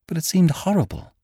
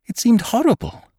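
First: Much higher, rising distress; horrified. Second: Far higher and louder, near breaking; horrified outburst. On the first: Girl recalling Ferrara's proposal, horrified. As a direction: horror creeping into the voice. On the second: Girl repeating her horror to Cairn, near breaking. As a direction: cry it out in horror. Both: Acted.

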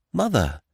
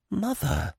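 First: Higher cry, dropping away; startled cry. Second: Very high, soft, stunned gasp of a word; stupefied cry. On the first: Jack starting toward his mother, crying out. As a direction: cry out as you start forward. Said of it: "cried Jack, starting forward". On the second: Lad just renounced by his mother, stupefied. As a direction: let it out faintly, in shock. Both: A narrator's reading.

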